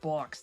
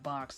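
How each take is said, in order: First: The vowel sounds like a Rhode Island accent. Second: The vowel sounds like the speaker's usual accent. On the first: The speaker calls it wrong. "due to my proximity to Rhode Island, I've sometimes slipped up and said box" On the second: The speaker calls it right. "instead of box"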